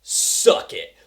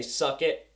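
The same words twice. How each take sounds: First: Voiceless, louder mock jeer; cocky taunt. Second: Said in the usual way. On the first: Fighter taunting the villain, voiceless cocky jeer. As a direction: spit it out like a trash-talking fighter. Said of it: "Dutch is like". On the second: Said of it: "she didn't say".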